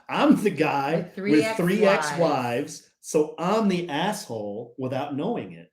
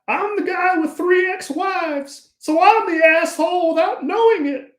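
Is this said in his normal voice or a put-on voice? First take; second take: normal; put-on. First: He says it in his own ordinary voice. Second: He says it in a put-on imitation voice. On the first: "Why did you say it with your regular voice that time?" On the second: "I got to change it on this one"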